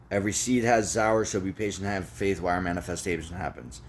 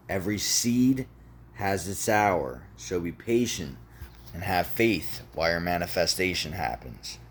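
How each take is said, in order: First: Quick recitation. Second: Measured, with pauses between phrases; deliberate repetition. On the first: Reciting the mantra to listeners, quick recitation. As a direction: rattle it off briskly. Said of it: "One more time". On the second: One more time for the people in the back, deliberate repetition. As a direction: let each phrase land before the next. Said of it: "One more time for the people in the back". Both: Shown as a demonstration.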